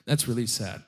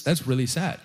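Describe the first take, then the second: First: Quieter, lower, sadder repeat. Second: Plain. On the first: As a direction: let it sink, softer and lower. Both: Retold or imitated. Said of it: "And I thought".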